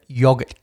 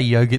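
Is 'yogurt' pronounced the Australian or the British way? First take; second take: British; Australian. First: The word is said with a British pronunciation. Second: The word is said with an Australian pronunciation. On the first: The speaker calls it wrong. "as the British would say incorrectly" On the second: The speaker calls it right. "We say yogurt in Australia, as God intended"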